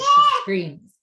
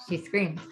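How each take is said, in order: First: Put-on a shrill, loud child's shriek, much higher; imitated toddler scream. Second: Said in the usual way. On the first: Shown as a demonstration. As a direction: squeal the word like a frustrated toddler. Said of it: "when she gets very frustrated, she screams". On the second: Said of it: "in a very, like, sweet way".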